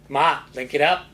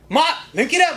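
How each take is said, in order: First: It is said in a plain, low-energy way. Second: It is said with more energy and enthusiasm.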